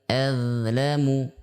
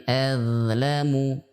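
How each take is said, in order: No difference in how they are said.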